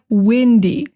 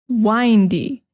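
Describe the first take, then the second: First: The first vowel sounds like 'ih'. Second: The first vowel sounds like 'eye'. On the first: There is a lot of wind. "Windy just means that there's a lot of wind" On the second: Full of curves or twists. "it has a different pronunciation"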